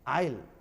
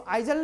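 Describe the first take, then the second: First: The s is silent. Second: The s is sounded like a z. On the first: The speaker calls it right. "एस को silent करके बोलना है" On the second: The speaker calls it wrong. "इसको आइजल नहीं पढ़ लेंगे"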